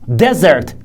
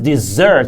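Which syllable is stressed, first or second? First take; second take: first; second. First: The stress is on the first syllable. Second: The stress is on the second syllable. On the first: A dry, sandy place. "stress is on the first syllable" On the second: A sweet food eaten after the main course. "So stress is on the second syllable"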